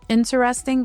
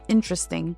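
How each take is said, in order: First: Every syllable of the word is fully pronounced. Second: A middle syllable is dropped, shortening the word.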